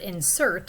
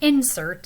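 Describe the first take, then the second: First: It carries the verb's stress pattern. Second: It carries the noun's stress pattern. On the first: It is used as a verb. "insert is a verb" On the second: It is used as a noun. "insert is a noun"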